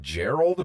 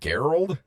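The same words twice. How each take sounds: First: The name begins with a soft J-like sound. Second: The name begins with a hard G sound.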